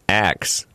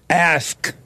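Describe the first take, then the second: First: The word is said like 'ax', with 'ks' reversed. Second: The word ends with a clear 'sk' sound. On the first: The speaker calls it wrong. "They don't hit the K" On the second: The speaker calls it right. "You're supposed to hit the K"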